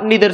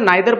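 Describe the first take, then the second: First: The first vowel sounds like 'ee'. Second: The first vowel sounds like 'eye'. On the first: "निदर सुद्धा म्हणू शकता" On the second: "नायदर पण म्हणू शकता"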